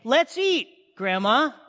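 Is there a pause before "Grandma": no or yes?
yes. There is a pause before Grandma.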